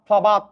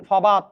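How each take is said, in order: No difference in how they are said.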